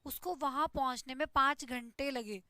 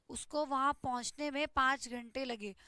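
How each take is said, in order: Both takes have the same delivery.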